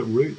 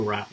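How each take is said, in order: First: Route said like "root"; root pronunciation. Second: Route rhyming with "out"; rout pronunciation. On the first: Streamer weighing two ways to say it, route as "root". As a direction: say route with an oo vowel. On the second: Streamer weighing two ways to say it, route as "rout". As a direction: say route with an ow vowel. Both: Shown as a demonstration. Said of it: "is it route or route".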